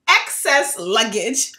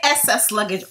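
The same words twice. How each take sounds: First: The word begins with a clear 'ex' sound. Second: The word begins with an 'ess' sound. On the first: The speaker calls it right. "What you're trying to say is excess luggage" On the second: The speaker calls it wrong. "But she would say excess luggage"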